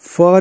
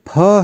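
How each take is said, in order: First: It is an f sound. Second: It is an aspirated p sound. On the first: The speaker calls it wrong. "फ नहीं।" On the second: The speaker calls it right. "ये फ है"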